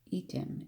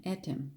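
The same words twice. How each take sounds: First: "Etam" as "EE-tum", long first E; "Etam" said EE-tum, weak ending; long-E pronunciation. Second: "Etam" as "ET-um", short first E; "Etam" said ET-um, weak ending; short-E pronunciation. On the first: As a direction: stress the ee at the start of "Etam". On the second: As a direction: start "Etam" like "met" without the m. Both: Shown as a demonstration. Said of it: "I don't know how you pronounce it".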